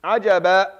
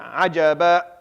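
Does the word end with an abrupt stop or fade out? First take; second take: abrupt stop; abrupt stop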